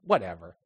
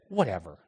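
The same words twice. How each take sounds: First: Put-on low, soft teenage brush-off; like a sulky kid; dismissive. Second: Low, soft dismissive brush-off. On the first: Kids' dismissive reply. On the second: Retold or imitated. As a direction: wave him off with contempt. Dismissive woman's reply.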